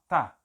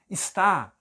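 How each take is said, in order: First: The first syllable is dropped, leaving one syllable. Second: The full two-syllable form is said. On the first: "tá é fraco, é pronúncia fraca" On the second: "está é forte"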